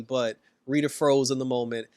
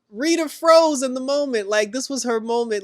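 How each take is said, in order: First: Said in the usual way. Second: Much higher and louder, incredulous; "froze" hit high and loud; exasperated exclaim. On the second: Real, not acted. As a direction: blurt it out in disbelief. Exclaims over Rita freezing.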